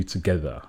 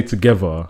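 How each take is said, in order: First: "together" enunciated with every syllable distinct; careful pronunciation. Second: "together" in the speaker's everyday slurred accent; casual slurred pronunciation. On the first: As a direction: say "together" carefully, unlike the casual slur. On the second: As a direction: say "together" casually, syllables run into each other. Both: Shown as a demonstration. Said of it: "it's different to you together".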